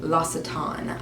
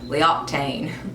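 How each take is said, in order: First: The name is said the standard way. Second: The name is said a country-style way. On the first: This is how a friend said to say it. The speaker calls it right. "My friend Megan told me that's how you say it" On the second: This is how the speaker used to say it. The speaker calls it wrong. "good old Alabama girl was saying L'Octane"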